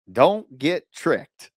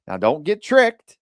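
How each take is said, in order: First: Very slow, deliberate don't get tricked; slow repeated warning. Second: Slow, loud warning on tricked; warning stress. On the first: Coach repeating warning to buyers, slowly drawn out. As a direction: drag out don't as a stern warning. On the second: Investor coach warning listeners, slow stressed tricked. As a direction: lean hard on tricked like a warning. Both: Shown as a demonstration. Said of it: "do not do this".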